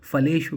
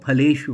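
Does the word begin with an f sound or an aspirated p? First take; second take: f; aspirated p. First: The word begins with an f sound. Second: The word begins with an aspirated p sound. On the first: The speaker calls it wrong. "बहुत से हमारे जो बच्चे हैं वो फलेषु कहते हैं" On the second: The speaker calls it right. "तो फलेषु होता है"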